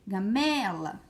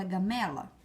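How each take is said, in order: First: "Gamela" with a long, punched ME; stress on ME. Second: Said in the usual way. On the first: Shown as a demonstration. Teacher showing pupils the tonic syllable, "Gamela" stressed on ME. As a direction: stretch out the middle syllable of "Gamela", gaMEEla. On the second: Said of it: "Vamos ver essa palavra".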